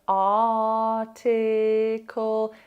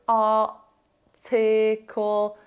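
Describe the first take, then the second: First: The T is pronounced as a clear T. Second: The T is replaced by a glottal stop. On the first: The speaker calls it right. "don't stop" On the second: The speaker calls it wrong. "you know that's not quite right"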